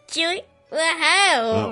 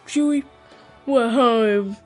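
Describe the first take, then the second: First: It is said in a cartoon-like voice. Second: It is said in a British accent. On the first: "he sounds like Mickey" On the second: "He's British all of a sudden"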